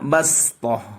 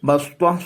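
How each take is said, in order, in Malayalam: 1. s ശബ്ദം സാധാരണമാണ്, ലഘുവും വ്യക്തവുമാണ്. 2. s ശബ്ദം എംഫാറ്റിക് ആണ്, ഘനവും ഇരുണ്ടതുമാണ്. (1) "ബസ്വ സീന് കൊണ്ടാണ് ഓതേണ്ടത്" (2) "സ്വാദല്ല"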